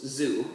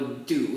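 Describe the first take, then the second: First: The syllable begins with a z sound. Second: The syllable begins with a d sound. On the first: The speaker calls it right. "it goes zoo" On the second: The speaker calls it wrong. "it does not go do"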